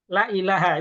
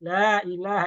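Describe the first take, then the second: First: The vowel in la is said short. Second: The vowel in la is held long. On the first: Indeed there is a god. The speaker calls it wrong. "la-nya dibaca pendek" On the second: There is no god. The speaker calls it right. "Dua harokat boleh nggak?"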